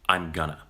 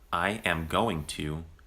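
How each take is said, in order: First: The words are contracted and reduced together. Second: Every word is said fully and separately.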